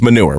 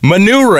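First: The word has its ordinary English pronunciation. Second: The word has a changed, fancier-sounding pronunciation. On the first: The product name is really just the everyday word. "it's manure" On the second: The product name is dressed up to sound classy. "he's pronouncing it manure"

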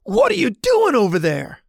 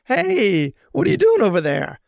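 First: It is said bluntly, in a New York way. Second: It is said in a friendlier, Midwest way.

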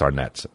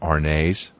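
First: The name is said with an American ending. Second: The name is said with a foreign, French-like ending. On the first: The speaker treats the brand as American. The speaker calls it right. "It's Arnett's in America" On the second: The speaker thinks the brand is foreign. The speaker calls it wrong. "would call them Arnays, because they thought it was like foreign"

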